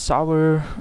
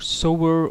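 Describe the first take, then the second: First: The vowel rhymes with 'how'. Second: The vowel rhymes with 'go'. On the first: The speaker calls it wrong. "I always say Sour" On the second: The speaker calls it right. "as in you reap and sow"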